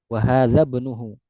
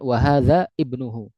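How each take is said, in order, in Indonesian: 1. Hadza langsung tersambung ke bnuhu, tanpa hamzah. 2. Ibnuhu dimulai dengan hamzah yang terpisah. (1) "langsung disambung"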